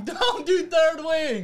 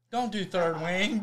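First: Higher, slow, laughing through it. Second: Said in the usual way. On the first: Real, not acted. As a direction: stretch it out while cracking up. Repeats line, now laughing.

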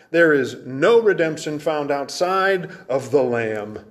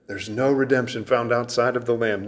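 First: "There is no redemption" slow, leaning hard on "no"; slow emphatic. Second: Said in the usual way. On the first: Acted. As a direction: drag it out slowly, hammering "no". Preacher repeats key truth.

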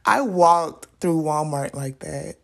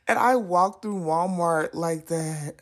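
First: Said in the usual way. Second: Slow, strained half-crying telling; mortified. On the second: Real, not acted. Telling viewers she walked through Walmart, slow and mortified. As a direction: drag it out, wincing at the memory.

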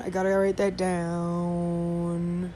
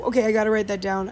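First: Slow, drawn-out sing-song with the down held long. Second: Said in the usual way. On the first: Acted. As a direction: stretch the down into a long dowwwn. Repeats the phrase, drawn out.

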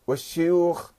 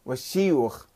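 First: والشيوخ said wash-shuyukh; والشيوخ with "shu"; with damma. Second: والشيوخ said wash-shiyukh; والشيوخ with "shi"; with kasra. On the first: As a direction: round the first vowel of والشيوخ to u. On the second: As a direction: spread the first vowel of والشيوخ to i. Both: Shown as a demonstration. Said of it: "بالضم والكسر".

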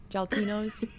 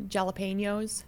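First: "jalapenos" with a hard J, JALLA-PEE-noze; boomer mispronunciation. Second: "jalapenos" with a hard J, JALLA-PAIN-yoze; boomer mispronunciation. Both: Retold or imitated. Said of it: "they can't pronounce anything".

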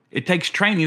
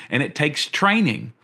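First: Raised pitch on the repeat, driving the point home; insistent higher restatement of training; emphatic repeat. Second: Said in the usual way. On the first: Shown as a demonstration. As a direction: say it again higher and more insistent.

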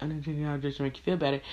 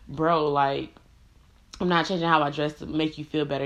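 First: Fast, soft mocking echo of her words; mocking mimic. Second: Said in the usual way. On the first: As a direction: parrot her back, quick and quiet. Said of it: "And he was like". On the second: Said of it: "And I was like".

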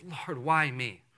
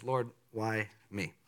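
First: Humble question. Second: Soft humble prayer. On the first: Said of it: "a right response ... is". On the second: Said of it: "have that kind of response". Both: Shown as a demonstration.

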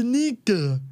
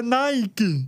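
First: "níquel" said as spelt, NI-ka with an ee vowel; "níquel" with a plain "ni" as written; read as spelt. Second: "Nike" said NAI-ki; "Nike" opening on a gliding NAI, ending in ki; as pronounced. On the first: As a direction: say "níquel" letter by letter, opening on NEE. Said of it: "a palavra se escreve níquel". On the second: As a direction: say "Nike" with an English "eye" vowel. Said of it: "mas se pronuncia Nike". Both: Shown as a demonstration.

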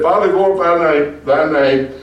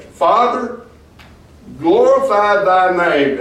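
First: Retold prayer. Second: High, slow, solemn plea on glorify; solemn prayer. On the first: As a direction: quote the prayer again with a stumble. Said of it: "and said". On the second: Acted. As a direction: lift Father high, then stretch out glorify thy name. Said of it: "Look at what he says next".

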